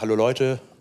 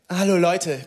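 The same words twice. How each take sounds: First: The greeting is said in a calm, normal voice. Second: The greeting is said in an exaggerated, hyped voice. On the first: This is how a normal presenter would talk. "der steht nicht da und sagt so" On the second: This imitates how the dubbed presenter always sounds. "bei dem klingt es immer so"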